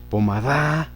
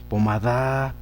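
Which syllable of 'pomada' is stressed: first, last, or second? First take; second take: last; last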